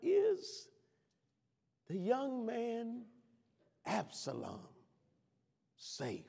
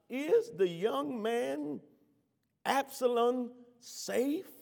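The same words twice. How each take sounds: First: The question is asked gently with low intensity. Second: The question is asked with greater intensity. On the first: "I can hear the tenderness, concern, and love in his tone" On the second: "Hear him again with more intensity"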